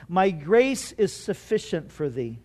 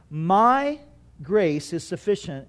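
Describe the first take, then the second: First: Said in the usual way. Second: MY held alone, then a short pause; stress on MY. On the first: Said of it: "it came to him with the emphasis on two words". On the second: Shown as a demonstration. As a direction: set "My" apart, then drop lower for the rest. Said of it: "with the emphasis on two words".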